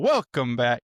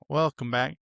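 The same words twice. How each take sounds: First: It is said in an intense, startling way. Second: It is said in a smoother, softer way.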